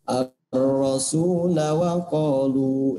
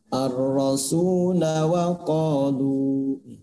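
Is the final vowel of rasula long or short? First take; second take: short; short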